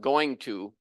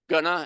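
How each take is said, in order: First: The phrase is said fully as two words. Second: The phrase is reduced to two quick syllables. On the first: "gonna instead of going to" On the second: "gonna instead of going to"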